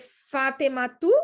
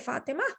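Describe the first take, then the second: First: The name ends with the case ending -tu. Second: The name ends without any case ending. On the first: "I can say Fatima tu" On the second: "or I can just say Fatima because I stopped here"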